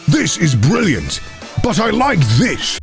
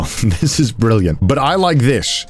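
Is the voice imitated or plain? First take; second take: imitated; plain. First: It is said in a put-on, throaty presenter voice. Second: It is said in a plain, ordinary voice.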